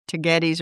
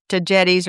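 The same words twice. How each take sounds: First: Tagetes with a hard g; "get" in the middle of Tagetes. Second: Tagetes with a soft g; "jet" in the middle of Tagetes. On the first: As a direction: say Tagetes as tuh-GET-eez. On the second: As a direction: say Tagetes as tuh-JET-eez. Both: Shown as a demonstration. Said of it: "I always say Tagetes".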